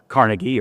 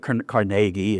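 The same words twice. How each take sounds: First: The name is said the general, widespread way. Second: The name is said the local, neighborhood way.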